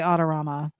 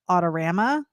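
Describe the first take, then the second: First: It is pronounced the speaker's own, non-local way. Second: It is pronounced the way Michigan locals say it. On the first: This is how the speaker says it. The speaker calls it wrong. "I say Autorama" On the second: This is how people in Michigan say it. The speaker calls it right. "they all call it Autorama"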